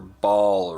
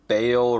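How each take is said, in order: First: The vowel sounds like the one in 'ball'. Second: The vowel sounds like the one in 'bale'. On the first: "I've always pronounced it Ball with like a long A" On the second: "Diablo says that Bale"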